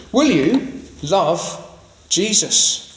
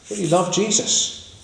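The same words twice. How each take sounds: First: Drawn-out, weighty question; very slow question. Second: Said in the usual way. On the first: Shown as a demonstration. Preacher presses the congregation, very slow and weighty. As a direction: stretch each word, very slowly.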